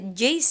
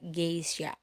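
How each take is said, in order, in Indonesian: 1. Kata ini diawali dengan bunyi j lunak. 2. Kata ini diawali dengan bunyi g keras. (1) "maka dia harus dibaca Jace ya. Padahal tidak" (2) "pengucapan dari sononya itu adalah G"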